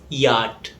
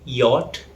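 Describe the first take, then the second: First: Yacht said yaht; American pronunciation. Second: Yacht said yot with rounded o; British pronunciation. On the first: Teacher showing American English yacht, open yaht. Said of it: "In American English". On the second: Teacher showing British English yacht, rounded yot. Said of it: "In British English". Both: Shown as a demonstration.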